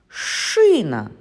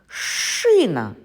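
The two takes are said the same way.

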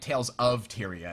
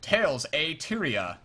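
First: The word 'of' is said fully and clearly. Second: The word 'of' is reduced to a weak 'a'. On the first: The speaker calls it right. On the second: The speaker calls it wrong. "Like, Tales a Tyria"

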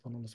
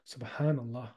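First: The word is said quickly and hurriedly. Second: The word is said slowly and deliberately. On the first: The words are rushed without reflection. The speaker calls it wrong. "You're not even saying it properly" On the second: The words are said with time to contemplate. The speaker calls it right. "Just take your time"

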